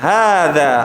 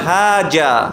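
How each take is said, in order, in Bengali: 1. মাঝের ব্যঞ্জনটি 'th'-এর মতো ধ্বনি। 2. মাঝের ব্যঞ্জনটি 'z' ধ্বনি। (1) "অ্যারাবিক টু অ্যারাবিক অ্যাকসেন্টে আসলে বলতে হবে" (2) "এখন কেউ যদি বলে হাজা, তাহলে কি হবে? ভুল হবে।"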